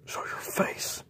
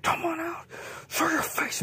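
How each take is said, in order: First: Hushed repeat of the challenge; whispered dare. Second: Defiant challenge. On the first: J J repeats his dare to the beast in a whisper. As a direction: breathe the dare into the dark. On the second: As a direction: yell a dare at the monster. J J challenging hidden beast. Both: Acted.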